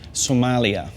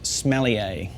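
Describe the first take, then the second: First: It sounds like the country name Somalia. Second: It sounds like the word smellier. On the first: "what not to say" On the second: "the second way not to pronounce it"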